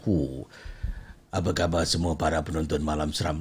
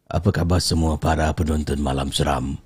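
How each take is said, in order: First: It is said in a close, intimate storytelling voice. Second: It is said in a plain, less intimate voice.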